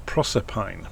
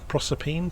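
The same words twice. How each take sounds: First: Proserpine said PROSS-er-pine, ending pine, falling; pronunciation attempt. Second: Proserpine said PROSS-er-peen, ending peen, rising high; questioning pronunciation. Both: Shown as a demonstration.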